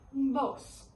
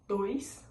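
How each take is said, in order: First: "dos" with the i swallowed, pure o; Spanish pronunciation. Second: "Dois" with the i glide kept; Portuguese pronunciation. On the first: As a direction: drop the glide in "dos". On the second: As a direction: say "Dois" with the oy sound. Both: Shown as a demonstration. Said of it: "A gente só engole o izinho".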